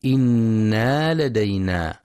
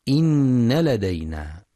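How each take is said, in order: First: إنا with a long alif after the nun; wrong reading. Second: إن with a doubled nun and a short open vowel, no alif; correct reading. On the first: Teacher showing the mistaken reading, إنا drawn out. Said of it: "يخطئ من يقرأ بزيادة ألف بعد النون". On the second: Teacher giving the correct recitation, إن with short fatha. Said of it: "والصواب نون مشددة مفتوحة فقط". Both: Shown as a demonstration.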